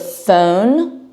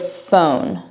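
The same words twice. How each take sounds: First: The vowel has a Baltimore accent. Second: The vowel has a standard American accent. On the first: This is how the speaker used to talk. "My O's and some of my A's would, would be a little bit different" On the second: This is how the speaker talks now. "instead of phone"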